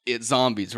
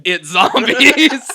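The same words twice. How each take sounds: First: Said in the usual way. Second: Long, drawn-out high yell; panicked mock shout. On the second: Storyteller voicing gang members revealing zombies, hammed-up shout. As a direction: stretch it into a huge hammed-up scream. Retold panicked cry, repeated loudly.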